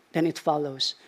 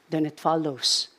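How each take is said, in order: Both takes have the same delivery.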